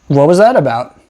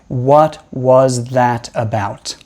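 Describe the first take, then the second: First: It is linked, with a quick flapped t. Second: It is slow, with a clear t sound. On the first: "We are probably going to make something called a flap or a tap" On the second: "speaking really slowly and really clearly"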